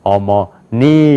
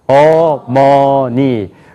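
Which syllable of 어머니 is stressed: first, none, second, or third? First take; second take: third; none. First: The stress is on the third syllable. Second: All syllables have equal pitch, loudness and length. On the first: "그 다음에" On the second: "높이가 같아요. 크기도 같아요. 길이도 같아요"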